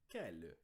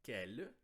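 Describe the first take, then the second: First: "quelle" said alone, lower and falling, the same kel; model pronunciation. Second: "quelle" said alone, rising, as a single clear kel; model pronunciation. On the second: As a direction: show how "quelle" sounds alone, kel with a rise. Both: Shown as a demonstration. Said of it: "a pronúncia deles isoladamente é".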